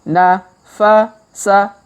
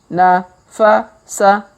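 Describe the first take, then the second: The two takes are said the same way.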